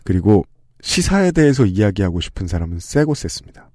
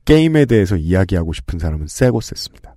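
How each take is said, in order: First: 시사에 given the main weight, set lower than the talk around it; stress on 시사. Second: 게임에 given the main weight, set lower than the talk around it; stress on 게임. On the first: Host contrasting news talkers with game talkers, stress on 시사에. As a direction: lean on 시사에 as the contrasting topic. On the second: Host contrasting game talkers with news talkers, stress on 게임에. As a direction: lean on 게임에 as the topic being contrasted. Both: Shown as a demonstration.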